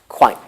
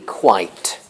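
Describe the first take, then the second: First: The final T is a glottal stop. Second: The final T is a full tongue-tip T.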